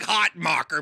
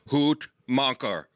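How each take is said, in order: First: The name is said with an English pronunciation. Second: The name is said with a German pronunciation. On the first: "I like hot mocker myself" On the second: "Terry corrected me. ... hoot macher, German"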